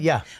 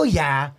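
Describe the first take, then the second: First: It is said in a plain, regular way. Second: It is said loudly and excitedly.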